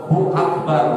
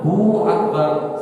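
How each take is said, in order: First: The hu sound is short with no extra sound. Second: The hu sound is drawn out like an added w. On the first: The speaker calls it right. "nggak ada panjang" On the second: The speaker calls it wrong. "kalau ada hu-nya ... seakan-akan ada ada wawnya"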